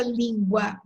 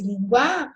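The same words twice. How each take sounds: First: "língua" stressed on the first syllable, LÍN-gua; accented form. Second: "língua" with stress thrown onto the final A, lin-GUÁ; accent removed. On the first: Teacher picking an example word, first-syllable stress on "língua". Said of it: "aí fica língua". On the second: Teacher showing the word without accent, final stress on "língua". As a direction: stretch it out, hitting the end of "língua". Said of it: "o A no final é sempre forte". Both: Shown as a demonstration.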